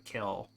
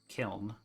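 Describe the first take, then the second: First: The word ends without an N sound. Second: The word ends with an N sound.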